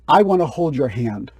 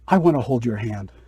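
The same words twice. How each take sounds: First: It is said at a loud volume. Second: It is said at a quiet volume. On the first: The speaker calls it right. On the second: The speaker calls it wrong.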